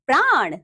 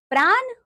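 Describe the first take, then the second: First: Said in the usual way. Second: "प्राण" high, with a dental n, "praan"; wrong pronunciation. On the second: Shown as a demonstration. Teacher showing pupils the error, "प्राण" mispronounced with dental n. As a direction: end "प्राण" on a plain n. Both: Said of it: "अन्य अशुद्धियां कुछ".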